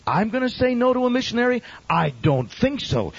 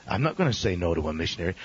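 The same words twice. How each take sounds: First: Incredulous. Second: Said in the usual way. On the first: Real, not acted. Preacher scoffing at turning away a missionary, incredulous. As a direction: throw the idea back in disbelief.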